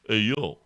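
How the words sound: It sounds offended and indignant.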